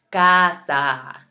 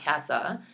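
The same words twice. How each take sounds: First: "casa" slow and loud, both A's long open "ah"; open Spanish A. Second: "casa" with a flat English A, as in "cat"; English vowel. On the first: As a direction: stretch "casa" into "kaah-saah". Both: Shown as a demonstration. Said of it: "notice how I'm saying those A's".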